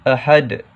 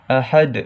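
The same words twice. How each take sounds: Both takes have the same delivery.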